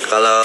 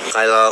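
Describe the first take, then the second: No difference in how they are said.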